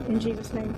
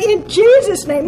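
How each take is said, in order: First: "in Jesus' name" fading away, softer at the end; trailing off. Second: "In Jesus' name" proclaimed higher, louder and slow, stress on JESUS; emphatic declaration. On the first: Retold or imitated. Mocking a prayer that trails off at the end, fading weakly. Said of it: "it just kind of trails off at the end". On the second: Shown as a demonstration. Showing how to close a prayer, bold and emphatic. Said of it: "we gotta say".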